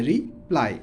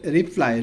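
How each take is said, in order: First: reply split in two, ri - plai; syllable by syllable. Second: Said in the usual way. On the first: Shown as a demonstration. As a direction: break reply after "ri". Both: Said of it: "ভেঙে ভেঙে উচ্চারণ করব".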